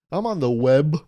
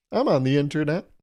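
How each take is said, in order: First: A hint of an old-timer saying web; mock old-timer. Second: Said in the usual way. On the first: Shown as a demonstration. Old-timer naming the internet the web, lightly put on. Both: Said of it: "like the web".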